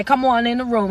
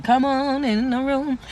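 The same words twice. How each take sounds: First: Said in the usual way. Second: Drawn-out catchphrase. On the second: Shown as a demonstration. Host savoring a pet welcome to viewers, drawn out. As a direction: let each word of "come on in the room" linger. Repeats own catchphrase with relish.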